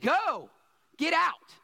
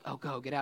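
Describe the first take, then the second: First: It is said in an angry, fed-up tone. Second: It is said in a mild, offhand tone.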